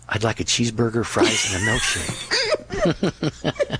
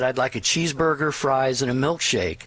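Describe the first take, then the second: First: It is said in a whisper. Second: It is said in a normal voice.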